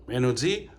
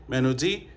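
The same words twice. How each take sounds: No difference in how they are said.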